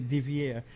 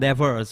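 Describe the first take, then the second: First: The surname is said like Devier. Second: The surname is said like Devers. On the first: This is the family's own version. The speaker calls it right. "they'll get confused if you say Devier" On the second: This is the common but incorrect version. The speaker calls it wrong. "wrongly pronounced as Sean Devers"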